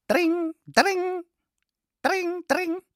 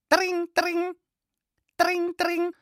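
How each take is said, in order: The two takes are said the same way.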